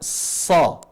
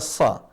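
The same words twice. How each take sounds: First: The vowel is heavy and leans toward an o. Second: The vowel is thin and plain, like open a. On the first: The speaker calls it right. "dibaca sa, mengarah ke huruf O" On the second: The speaker calls it wrong. "tidak dibaca sa"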